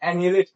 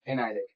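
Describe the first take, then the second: First: The second syllable has a short 'ee' vowel. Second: The second syllable has an 'eye' vowel. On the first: The speaker calls it wrong. "इसको बहुत लोग एनिलेट पढ़ते हैं, जो कि गलत है" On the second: The speaker calls it right. "इसका सही प्रोनाउंसिएशन क्या है"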